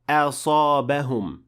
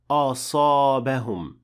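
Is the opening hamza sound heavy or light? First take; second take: light; heavy. First: The opening hamza sounds light and empty-mouthed. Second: The opening hamza sounds heavy and full-mouthed. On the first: The speaker calls it right. "Notice that I said" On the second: The speaker calls it wrong. "and not"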